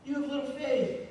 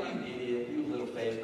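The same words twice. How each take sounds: First: Gentle correction. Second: Low, contemptuous put-down, lightly done; scornful rebuke. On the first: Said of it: "I prefer to look at this as a lesson". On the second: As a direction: sneer the words as a mild mock insult. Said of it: "I don't think Jesus is looking at Peter like". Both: Retold or imitated.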